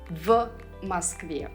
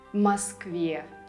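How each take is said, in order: First: The preposition is said clearly as a separate word. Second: The preposition is barely heard, blended into the word. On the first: The speaker calls it wrong. "Many beginner students would say" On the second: The speaker calls it right. "You should barely hear the preposition"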